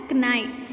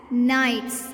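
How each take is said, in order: First: KNIGHTS with an audible K before the N; K wrongly sounded. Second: KNIGHTS starting straight on the N sound; silent K. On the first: Teacher showing pupils the mistake, KNIGHTS with a sounded K. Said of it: "it is not pronounced as". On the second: Teacher modelling the word for kids, KNIGHTS with silent K. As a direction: say KNIGHTS like "nights", no K. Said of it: "It is pronounced as". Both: Shown as a demonstration.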